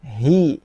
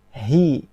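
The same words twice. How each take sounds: The two takes are said the same way.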